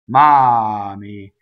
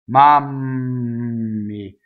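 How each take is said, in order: First: The M is short, the vowel carries the energy. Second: The M is held long with lips together. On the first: "which is single M, I don't allow my lips to linger" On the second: "So that's double M"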